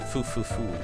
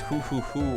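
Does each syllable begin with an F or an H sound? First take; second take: F; H. First: Each syllable begins with a hissing F sound. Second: Each syllable begins with a breathy H sound. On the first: "or foo foo foo?" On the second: "Do you say that as hoo hoo hoo"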